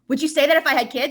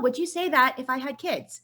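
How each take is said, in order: First: It is asked in a sharp, indignant tone. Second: It is asked in a calm, light, curious tone. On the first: An angry accusation. "I didn't say, what" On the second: A genuine, non-hostile question. "I asked it in a way that was like, oh"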